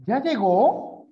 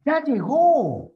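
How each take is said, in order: First: "Ya llegó" as a question, high and louder, rising at the end; interrogative tune. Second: "Ya llegó" exclaimed high and loud, slow, falling at the end; exclamative tune. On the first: Teacher demonstrating tone, rising interrogative on "Ya llegó". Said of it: "Es una interrogativa". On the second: Teacher demonstrating tone, loud exclamation on "Ya llegó". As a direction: cry out "Ya llegó" with a stretched, falling final ó. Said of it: "Es una admirativa". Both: Shown as a demonstration.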